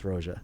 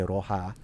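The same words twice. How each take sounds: First: It is not said like the Spanish word. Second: It is said like the Spanish word for red. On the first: It is a name made from the speaker's initials. The speaker calls it right. "no, no, no, it's Roja" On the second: It is taken as the Spanish word for red. The speaker calls it wrong. "a lot of people say Roja, which means red, right, in Spanish"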